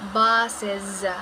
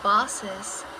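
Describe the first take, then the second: First: The middle s sound is voiced, a buzz. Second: The middle s sound is voiceless, a hiss. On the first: The speaker calls it right. "We need to vibrate our vocal cords" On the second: The speaker calls it wrong. "It is not"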